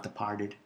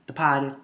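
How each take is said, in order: First: Departed with a hard R in "part"; R pronounced. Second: Departed as "de-pah-ted", no R; Boston dropped R. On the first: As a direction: say "Departed" with the R sounded, soft aside. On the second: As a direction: say "Departed" with a broad R-less "pah". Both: Shown as a demonstration. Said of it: "See, not Departed".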